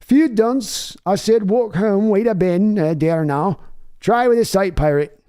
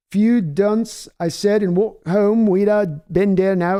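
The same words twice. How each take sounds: First: Second West Country try. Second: A first, tentative try at a West Country British accent; attempted West Country accent. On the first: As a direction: push the West Country British accent harder this time. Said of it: "okay, we'll try it here". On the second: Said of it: "for a West Country British accent, try this". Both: Shown as a demonstration.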